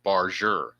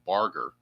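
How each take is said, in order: First: The G is said as a soft G. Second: The G is said as a hard G. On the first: The speaker calls it right. "They're pronouncing it Barger. It's a soft G" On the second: The speaker calls it wrong. "I was mispronouncing this guy's name. I was calling him Barger"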